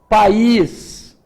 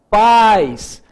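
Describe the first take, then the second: First: The stress falls on the i vowel. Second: The stress falls on the a vowel. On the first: It means a country. "neste caso aqui eu tenho um i intenso" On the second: It means parents. "o a é a mais forte"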